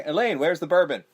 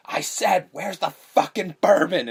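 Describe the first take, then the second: First: Lightly raised calling voice, higher pitch; imitated man calling out for bourbon; calling upstairs. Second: Higher, louder, drawn-out mock anger; imitated man losing patience, stretching the words; angry repeated demand. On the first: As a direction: call up to Elaine for the bourbon. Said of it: "the man calls up". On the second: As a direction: hammer out the demand, slow and loud.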